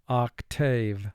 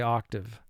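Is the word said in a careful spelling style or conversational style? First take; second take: careful; conversational. First: It is said slowly with each syllable fully pronounced. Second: It is said naturally with a reduced second syllable. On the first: The word is pronounced to help with spelling. "Now for spelling, let's pronounce the word octave" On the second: This is how the word is said in everyday speech. "And in conversation, you would say octave"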